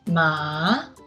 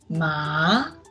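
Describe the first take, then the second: The two takes are said the same way.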